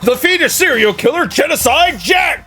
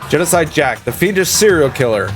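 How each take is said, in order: First: It is said with dramatic excitement. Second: It is said flatly, without excitement.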